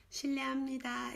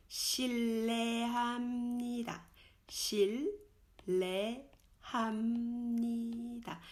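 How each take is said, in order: First: 실례합니다 quick, h dropped, shileamnida; 실례합니다 fast and casual; fast natural. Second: 실례합니다 drawn out slowly, shil-le-ham-ni-da, h sounded; slow careful 실례합니다; slow demo. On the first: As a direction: say 실례합니다 at everyday speed. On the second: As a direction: lay out 실례합니다 syllable by syllable. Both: Shown as a demonstration.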